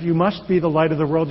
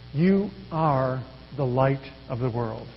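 First: Mock command. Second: Slow, softer, reassuring promise; gentle promise. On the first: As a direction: stress on "be", a firm demand. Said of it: "it's not a command". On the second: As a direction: offer it as a promise, not an order. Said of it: "It's a promise". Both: Shown as a demonstration.

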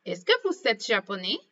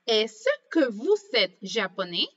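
First: French question with rising end on japonais; question intonation. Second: Teacher modelling the question tune; question intonation. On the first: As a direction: rise at the end like a real question. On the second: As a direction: ask it clearly, rising at the end. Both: Shown as a demonstration. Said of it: "hacemos una entonación cuando preguntamos".

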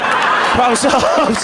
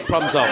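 First: Slow, loud, laughing Problem solved; drawn-out problem solved. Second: Said in the usual way. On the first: Shown as a demonstration.

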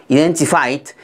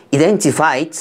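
Both takes have the same delivery.

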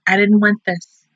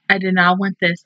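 First: Said in the usual way. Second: "did not" pulled apart, each word firm; emphatic "I did not"; stress on did not. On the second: Real, not acted. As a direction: space out "did" and "not", leaning on "not". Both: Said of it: "like I said".

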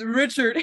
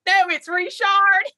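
First: "Richard" with a plain English "ch". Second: High, loud, drawn-out "Richard" as ree-SHARD; French-style Richard. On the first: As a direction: say "Richard" as RITCH-erd. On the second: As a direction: indignantly correct them, "Richard" as ree-SHARD. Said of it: "you added an unnecessary accent". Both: Retold or imitated.

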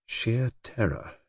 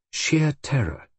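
First: Soft, slow, reflective repetition; grave echo. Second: Higher, lightly dramatic delivery; quoted theatrical remark. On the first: Narrator recalling the look on Brenda's face, grave and hushed. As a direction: let the phrase sink in slowly, hushed. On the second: Magda talking about the play, lightly theatrical. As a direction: relish the phrase as in conversation. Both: A narrator's reading.

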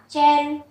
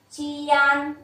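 First: "chen" as one syllable with an e vowel; "chen" closed up, no open "a"; blended syllable. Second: "Chian" held level, its parts heard as chi-an; "Chian" sounded out letter group by letter group; spelled-out sounds. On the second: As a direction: stretch "Chian" with an open "an". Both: Shown as a demonstration. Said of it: "đọc là chen".

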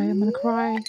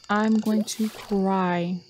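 First: Said in the usual way. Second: Every word of "I'm going to cry" stretched; slow, deliberate complaint. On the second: Real, not acted. Player fed up with the game, slow drawn-out complaint. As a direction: spell out the threat slowly, word by word. Exasperated at game, slower repeat.

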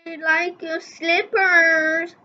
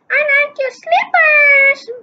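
First: Said in the usual way. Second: Slippers said high and loud; high character voice. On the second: Shown as a demonstration. Reader redoes the compliment, high and loud. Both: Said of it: "Wait, no".

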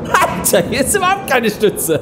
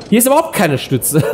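First: Excited exclamation. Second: Laughing nervously on the ride. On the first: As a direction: burst out in disbelief. Riding coaster, shocked. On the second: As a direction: laugh through the words. Riding coaster, laughing. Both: Real, not acted.

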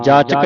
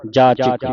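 First: ਜਾਚਕ with neutral vowel, "jaachak"; misreading without i. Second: ਜਾਚਕ ending in "chik"; correct short i. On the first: Teacher showing the mistake to avoid, ਜਾਚਕ as "jaachak". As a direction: drop the i, ending ਜਾਚਕ in "chak". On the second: Teacher giving the correction, ਜਾਚਕ as low "jaachik". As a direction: put a clear short i in ਜਾਚਕ. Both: Shown as a demonstration. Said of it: "ਜਾਚਕ ਨਹੀਂ ਪੜ੍ਹਨਾ".

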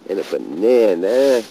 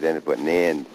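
First: Loud, rising exasperated bark; loud indignant huh at the end; angry outburst. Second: Said in the usual way. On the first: Real, not acted. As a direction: blow up at the litter. Frustrated at grave litter.

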